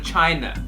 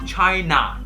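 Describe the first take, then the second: First: The word ends without an open 'ah' vowel. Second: The word ends with an open 'ah' vowel. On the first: The speaker calls it wrong. "而不是 China" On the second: The speaker calls it right. "所以这个应该是 China"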